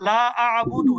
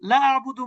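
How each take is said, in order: First: The vowel of la is drawn out long. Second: The vowel of la is cut short. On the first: I do not worship. The speaker calls it right. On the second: I certainly do worship. The speaker calls it wrong.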